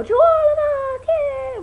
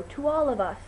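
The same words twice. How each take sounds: First: Very high, loud group chant; shouted team cheer. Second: Said in the usual way. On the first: Shown as a demonstration. Showing viewers the cast's warm-up cheer, shouted high. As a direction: yell it like a huddle rallying cry. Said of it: "for our warm-up, we put our hand in a circle and go". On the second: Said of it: "raise our glasses and go".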